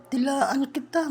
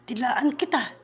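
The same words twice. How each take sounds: First: Slow, drawn-out Dilaan kita; lingering mock threat; slow playful threat. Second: Said in the usual way. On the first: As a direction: stretch out Dilaan kita teasingly.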